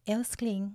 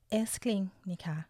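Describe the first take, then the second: First: Said in the usual way. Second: Breathy whispered endearment to a partner; intimate whisper. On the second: Shown as a demonstration. Host shows how she calls her partner darling, whispered. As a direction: whisper it like a secret pet name. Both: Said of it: "เวลาพูดกับแฟนนะคะ ก็จะ".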